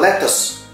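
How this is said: Said in a British accent, u-like final vowel. "British English itu pronunciasinya lettuce"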